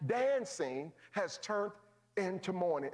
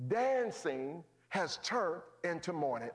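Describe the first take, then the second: First: Dancing has turned stretched slowly with a rise, then into mourning falls; drawn-out repeat. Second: Dancing has turned into mourning, slow and falling; weighty line. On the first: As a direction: draw the repeat out slower, pause before into mourning. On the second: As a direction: let each word land heavy. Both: Shown as a demonstration. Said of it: "I'm finished".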